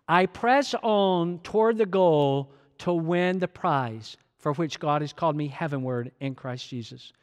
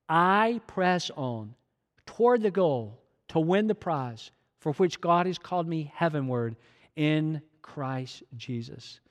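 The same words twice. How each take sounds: First: It is read at normal speed. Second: It is read slowly.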